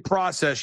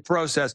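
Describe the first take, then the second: First: It is said in an American accent. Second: It is said in a Canadian accent. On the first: "You don't say process" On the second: "you say process"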